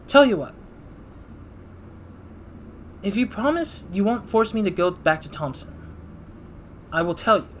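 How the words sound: The line is read in an odd way.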